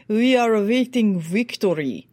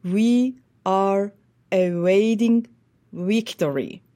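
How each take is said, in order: First: Put-on Russian accent with a crisp, distinct v. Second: Very slow, "awaiting" with a w halfway to v; Western Ukrainian accent. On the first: Coach contrasting an Eastern Russian-accented "We are awaiting victory". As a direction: imitate a Russian speaker, hard v sounds. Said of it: "Russian who will say". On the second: Retold or imitated. Coach repeating Zelensky's line in Western Ukrainian accent. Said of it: "So he would have said".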